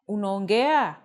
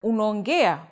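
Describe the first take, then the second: First: The pitch goes higher like a question. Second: The pitch stays level without rising. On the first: It asks whether you speak. "Saying it with a higher intonation makes it a question" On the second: It states that you speak. "which literally means you speak"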